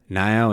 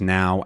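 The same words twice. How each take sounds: First: The vowel has a Southern American quality. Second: The vowel has a standard American quality. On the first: "the ao stays can be stays sort of more like that" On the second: "instead of just now"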